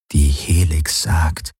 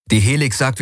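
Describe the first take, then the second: First: Slow, doubtful repeat of his words; sceptical echo. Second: Higher-pitched, brisk insistence; insistent. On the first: Companion echoing the pilot's claim about the Helix, sceptical. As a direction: draw it out slowly, unconvinced. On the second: Pilot cutting off his companion's doubts, insistent. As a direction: shut down the objection. Pilot cuts off her objection. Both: A narrator's reading.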